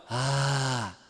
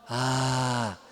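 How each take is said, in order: First: The vowel is said with a breathy murmur. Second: The vowel is said with a breathy murmur.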